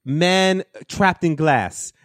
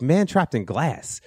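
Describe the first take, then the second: First: High, very slow mock Polish accent; botched Polish accent. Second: Said in the usual way. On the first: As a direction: stretch each word in a fake Polish accent. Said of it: "I was doing a better accent of him earlier". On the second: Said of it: "and I was like".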